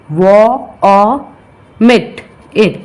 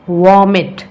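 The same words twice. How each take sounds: First: Vomit broken into vo, o, mit, it; sounded out. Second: Said in the usual way. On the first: Shown as a demonstration. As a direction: say vo ... o ... mit, it, each part apart. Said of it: "two vowel sound". (शब्द तोड़कर उच्चारण) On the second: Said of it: "Next one is vomit".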